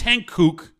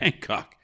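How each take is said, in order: First: The second syllable sounds like 'kook'. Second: The second syllable sounds like 'cock'. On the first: The speaker calls it right. "No, it is Hankook" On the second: The speaker calls it wrong. "I just like to call it Hancock"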